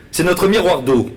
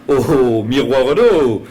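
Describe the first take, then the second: First: Said in the usual way. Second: "miroir d'eau" drawn out slowly in mock wonder; mocking repeat. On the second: Toulousain mocking the Bordelais' pride, slow mock awe. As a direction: stretch "miroir d'eau" as if it were ridiculous.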